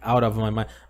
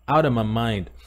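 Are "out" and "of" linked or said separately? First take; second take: separately; linked. First: "Out" and "of" are said as separate words. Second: "Out of" runs together into "outa". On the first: "aqui a gente não vai falar out of my mind" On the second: "Na verdade eles falam outa"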